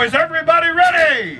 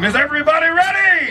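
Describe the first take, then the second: First: High, loud call to the crowd; rally the crowd with a big shout; shouted question. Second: High, loud call to the crowd; rally the crowd even harder; shouted question. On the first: Host fires up the fair crowd with a shout. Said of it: "Y'all can do better than that". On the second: Host asks the crowd a second time, shouting. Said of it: "Let's try it one more time". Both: Real, not acted.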